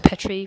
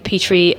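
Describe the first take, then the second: First: The name does not rhyme with 'tea tree'. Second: The name rhymes with 'tea tree'. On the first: The speaker calls it wrong. "frequently mispronounced as Petrie" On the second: The speaker calls it right. "rhymes with tea tree"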